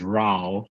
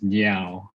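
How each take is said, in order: First: The name starts with an R sound. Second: The name starts with an N sound. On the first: This is the Mandarin pronunciation. "the Chinese pronunciation is Rao" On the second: This is the Hakka pronunciation. "Hakka pronunciation is Niao"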